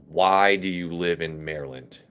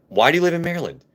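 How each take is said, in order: First: A low, lightly drawled Southern Texan twang; Southern Texan accent. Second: Mock Southern Texan twang, pitched much higher; Southern Texan accent. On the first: Retold or imitated. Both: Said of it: "Everett's was more like".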